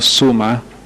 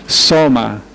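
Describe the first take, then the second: First: The first vowel is an oo sound. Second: The first vowel is an o sound. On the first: The speaker calls it wrong. "no suma" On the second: The speaker calls it right.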